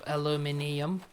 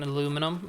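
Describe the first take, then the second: First: It is said with five syllables, ending -nium. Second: It is said with four syllables, ending -num.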